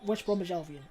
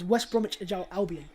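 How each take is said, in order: First: The name is said fast with sounds reduced. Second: The name is said carefully with every syllable.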